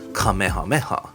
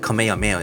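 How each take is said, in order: First: It is said with a Japanese-style pronunciation. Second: It is said with an English-style pronunciation. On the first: The speaker calls it right. "you have to pronounce it as Kamehameha" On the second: The speaker calls it wrong. "If you said Kamehameha in school, you'd actually get yelled at"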